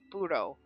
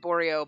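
First: The name is said with two syllables. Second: The name is said with three syllables. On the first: The speaker calls it right. "they pronounce it more like Buro" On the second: The speaker calls it wrong. "I was calling it Boreo"

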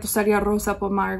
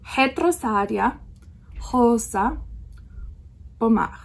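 First: The initial R is an English R sound. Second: The initial R sounds like an H. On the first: The speaker calls it wrong. "we all want to say" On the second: The speaker calls it right. "So it's more like a H sound"

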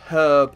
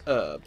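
First: The word begins with an audible h sound. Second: The word begins with a vowel, no h sound. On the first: This is the speaker's own usual pronunciation. "I know it's herb" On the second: This is how it is said in America. "in America it's herb. They don't pronounce the H"

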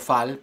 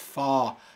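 First: The vowel is a plain Spanish-style a. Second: The vowel is throaty, with the mouth wider open. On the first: The speaker calls it wrong. "Es posible que tú estés diciendo fall" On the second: The speaker calls it right. "Fa tiene como un sonido más de garganta... boca más abierta"

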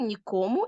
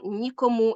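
First: The stress is on the second syllable. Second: The stress is on the first syllable. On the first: It indicates unwillingness or impossibility to do something. "з наголосами на другому складі" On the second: It indicates that someone or something is absent. "з наголосом на першому складі"

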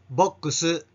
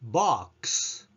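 First: The ending is voiced with added vowels. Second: The ending ks is whispered without vowels. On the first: The speaker calls it wrong. "ボックスのように声を出して発音しないように" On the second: The speaker calls it right. "声を出さずひそひそ声でクスと発音してください"

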